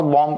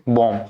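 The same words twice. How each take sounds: First: Bomb with the final b sounded; wrong pronunciation. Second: Bomb ending on "m", b silent; correct pronunciation. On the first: Teacher warning students off it, bomb with audible b. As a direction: voice the last b of bomb. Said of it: "it's not bomb". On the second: Teacher correcting students, bomb with silent b. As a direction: say bomb as "bom", pitch dropping. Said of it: "नहीं पढ़ेंगे". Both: Shown as a demonstration.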